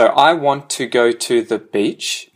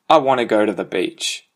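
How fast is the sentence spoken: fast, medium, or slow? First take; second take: slow; fast. First: It is slow, with every syllable fully pronounced. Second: It is fastest, with sounds heavily reduced and merged. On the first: "I pronounce that perfectly, you know, like I say every single syllable"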